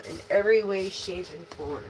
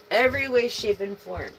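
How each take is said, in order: First: Said in the usual way. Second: "Every way" said higher and louder, falling on "way"; emphatic repeat. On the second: Shown as a demonstration. Tarot reader stressing her point to the collective, emphatic. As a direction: hammer home "Every way, shape, and form".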